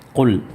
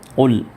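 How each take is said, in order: Both takes have the same delivery.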